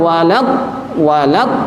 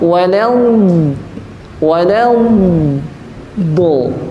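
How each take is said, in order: First: The dhad sound is cut off short like d. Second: The dhad sound is drawn out and lengthened. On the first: The speaker calls it wrong. "jangan walad walad" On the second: The speaker calls it right. "dengan sifat istitolah"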